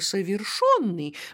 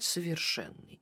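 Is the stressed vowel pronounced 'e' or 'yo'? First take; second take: yo; e. First: The stressed vowel sounds like 'yo'. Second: The stressed vowel sounds like 'e'. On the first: "мы обязаны писать с буквы «Ё»" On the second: "чтобы отличать его от"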